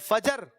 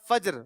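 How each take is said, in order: First: A short vowel separates the j and the r. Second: The j and r join with no vowel. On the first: The speaker calls it wrong. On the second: The speaker calls it right.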